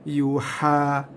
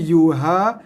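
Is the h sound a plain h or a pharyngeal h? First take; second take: pharyngeal; plain. First: The h is a strong pharyngeal sound. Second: The h is a plain, light breathy sound. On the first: The speaker calls it right. "tapi yuha" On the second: The speaker calls it wrong. "Bukannya yuha"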